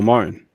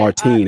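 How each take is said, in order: First: The name is said the plain English way. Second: The name is said with its foreign accent.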